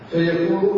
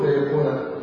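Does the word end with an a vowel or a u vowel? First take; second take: u; a. First: The word ends with a u vowel. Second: The word ends with an a vowel. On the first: The creation happens simply and directly. "قراءه الجمهور فيكون دبابه" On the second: The creation results as a consequence of the command. "فيكون بنص"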